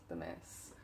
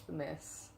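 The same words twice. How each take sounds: First: Much lower and softer, muttered; low dismayed mutter. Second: Said in the usual way. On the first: Real, not acted. Muttering in dismay at the mess in her room. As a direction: grumble it under your breath at the mess.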